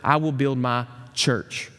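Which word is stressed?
church. The word "church" carries the stress.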